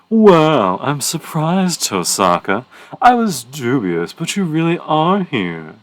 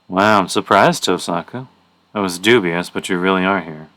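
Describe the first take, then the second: First: It is read in a special character voice. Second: It is read in a plain voice.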